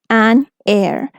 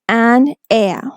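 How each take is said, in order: First: American accent, with an R sound at the end. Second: British accent, with no R sound at the end. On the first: "According to American English" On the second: "If you are using the British version"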